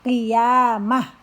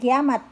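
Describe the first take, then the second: First: The word ends with a soft h sound. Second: The word ends with a t sound. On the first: The speaker calls it right. "berubah suaranya menjadi ha" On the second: The speaker calls it wrong. "bukan kiamat"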